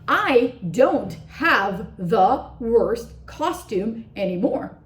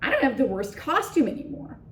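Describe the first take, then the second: First: Each word is said separately and clearly. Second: Words run together, with small words reduced. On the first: The speaker calls it wrong. "he doesn't say" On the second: The speaker calls it right. "you stress the words worst, costume, and anymore"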